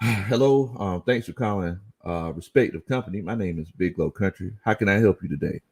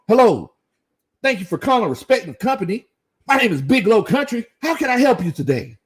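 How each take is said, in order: First: It sounds tired and hesitant. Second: It sounds eager and upbeat.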